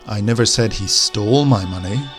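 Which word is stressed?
stole. The stress falls on the word stole. He may have taken it without stealing it. "maybe he borrowed my money, but he didn't steal it"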